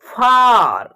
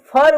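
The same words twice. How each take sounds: First: फार with a long open 'aa'. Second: फर with a short schwa; short vowel in फर. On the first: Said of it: "आ के रूप में निकलेगा". (फार में लंबा आ) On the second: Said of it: "फर उच्चारण नहीं करेंगे". (फर में छोटा अ) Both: Shown as a demonstration.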